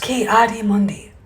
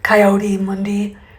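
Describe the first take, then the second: First: The name begins with a 'kee' sound. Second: The name begins with a 'coy' sound. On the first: The speaker calls it right. "It's Ki-Adi-Mundi" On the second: The speaker calls it wrong. "It's not Kai or Koi or whatever she said"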